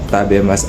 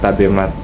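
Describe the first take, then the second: First: The word ends with an s sound. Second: The word ends with a t sound. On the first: The speaker calls it right. "tabemas aja" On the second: The speaker calls it wrong. "jadinya tabemat kayak gitu"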